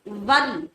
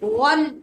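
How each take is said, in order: First: The w is thin with unrounded lips. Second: The w is full with rounded lips. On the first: The speaker calls it wrong. "वल ये गलत है" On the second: The speaker calls it right. "होंठ गोल करके पुर आवाज से"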